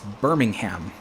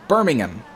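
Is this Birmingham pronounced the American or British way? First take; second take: American; British. First: It is pronounced the American way. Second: It is pronounced the British way. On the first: This is how it is said in Alabama. "this is not the U K, this is America, it's Birmingham" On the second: This is how it is said in the UK. "it's Birmingham if you're in the U K"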